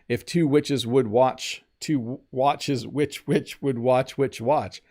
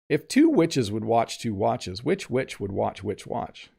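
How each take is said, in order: First: The sentence is said slowly, with pauses. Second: The sentence is said quickly, without pauses.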